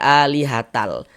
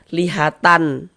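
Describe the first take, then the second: First: The final n merges into an l sound. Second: The word ends with a clear n sound. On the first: The speaker calls it right. "melebur ke huruf lam. Kita baca alihatal" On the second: The speaker calls it wrong. "jangan dibaca lihatan"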